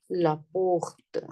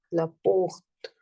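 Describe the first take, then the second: First: Said in the usual way. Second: "la porte" repeated in a whisper. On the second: Shown as a demonstration. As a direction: whisper "la porte" back for the class. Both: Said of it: "So here I'm using la".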